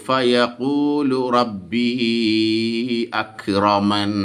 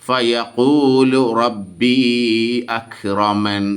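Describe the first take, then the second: Both takes have the same delivery.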